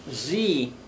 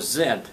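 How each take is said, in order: First: It is said the American way, as zee. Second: It is said the Canadian way, as zed.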